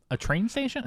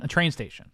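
First: "station" rising as a question; tentative question on "train station". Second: Said in the usual way. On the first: Real, not acted. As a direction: say "a train station" higher, unsure, lifting at the end. Unsure, then confirms the place.

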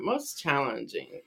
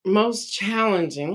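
First: Much softer, falling, said to herself; quiet musing aside; murmured to self. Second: Said in the usual way. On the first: Real, not acted. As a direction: mull it over under your breath. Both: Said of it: "Let me think for a moment".

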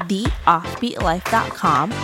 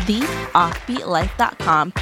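Both takes have the same delivery.

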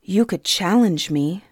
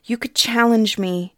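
First: Held-back even tone; girl restraining her anger at the king; evenly. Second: Louder, higher, stress on challenge; girl insisting to the king, barely controlled; firmer repeat. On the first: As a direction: hold your temper, keep it level. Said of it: "Suni said evenly". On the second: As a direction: push harder on challenge. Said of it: "holding her temper with effort". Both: Acted.

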